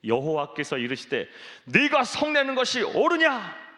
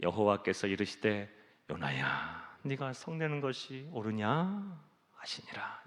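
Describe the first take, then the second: First: High, loud rebuke on 옳으냐, 옳으냐 thrown out sharply at the top; stern divine rebuke, much higher and louder; rebuking God voice. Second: Lower, softer take with 요나야 said tenderly; tender fatherly voice, much lower and softer; gentle reading. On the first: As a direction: scold Jonah from far above, 옳으냐 loudest. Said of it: "어떻게 읽어야 제대로 읽은 걸까요?". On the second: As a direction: coax Jonah, 옳으냐 soft and falling. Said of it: "이게 맞을까요?". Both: Shown as a demonstration.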